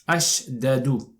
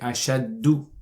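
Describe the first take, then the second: First: The two d sounds are separated by a vowel. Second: The two d sounds merge into one doubled d. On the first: This is the underlying form before assimilation. "it's actually supposed to be like this" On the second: This is the actual form after assimilation. "merge the two dals together"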